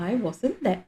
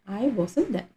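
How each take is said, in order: The two takes are said the same way.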